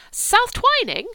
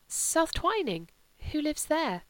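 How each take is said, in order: First: "South Twining?" cried out much higher and louder; a girl's loud, high, amazed cry of "South Twining?"; surprised exclamation. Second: Puzzled question. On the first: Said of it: "said Cordelia". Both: A narrator's reading.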